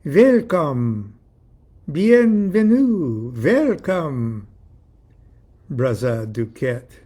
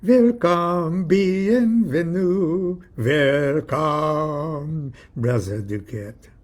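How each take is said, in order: First: Put-on loud European-accented greeting, drawn out; hammed-up European accent, word by word; pretentious European welcome with pauses; affected European accent. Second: Put-on sung European-accented welcome, long held notes; sung, singsong, affected European accent; sung, musical greeting. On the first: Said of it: "embarrassingly affected European accent". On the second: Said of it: "I think I heard it musically". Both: A narrator's reading.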